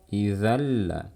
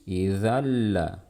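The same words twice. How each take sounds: No difference in how they are said.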